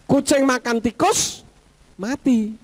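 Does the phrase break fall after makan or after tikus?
after tikus. The phrase breaks after the word tikus. The cat eats a mouse and then dies. "Siapa yang mati? Kucingnya atau tikusnya?"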